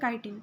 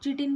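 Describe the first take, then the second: First: The word begins with a 'k' sound. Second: The word begins with a 'ch' sound. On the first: The speaker calls it right. "इसकी correct pronunciation क्या होती है?" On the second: The speaker calls it wrong. "इसको कई लोग चिटिन भी बोल देते हैं, नहीं"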